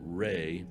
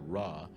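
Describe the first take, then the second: First: The name is said with an 'ay' vowel. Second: The name is said with an 'ah' vowel. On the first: This is how it was said in the past. "They used to pronounce it Ray" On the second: This is how people say it now. "but we all pronounce it Ra"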